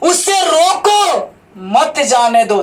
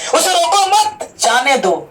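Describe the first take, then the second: First: The pause comes after 'रोको'. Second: The pause comes after 'मत'.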